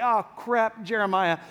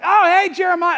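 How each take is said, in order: First: Deflated, unwelcoming groan of recognition; mock dread. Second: High, loud, over-friendly hello; mock delighted greeting. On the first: Crowd seeing the prophet coming, mock dread. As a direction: act let down at who just turned up. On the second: Crowd greeting an arriving prophet, mock delighted. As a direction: greet him with hammed-up delight.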